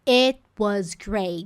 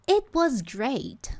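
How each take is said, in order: First: The final t in 'great' is held. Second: The final t in 'great' is released.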